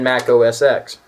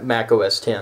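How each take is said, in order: First: The final part is said as the letter X. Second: The final part is said as the number ten. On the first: The speaker calls it wrong. "I said that incorrectly" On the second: The speaker calls it right. "It's not X, it's ten"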